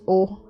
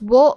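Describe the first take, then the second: First: It begins with a plain vowel sound. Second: It begins with a w sound. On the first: This is how the particle is actually spoken. The speaker calls it right. "you pronounce it as o" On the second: This is how the character is typed. The speaker calls it wrong. "this is wo, but you pronounce it as o"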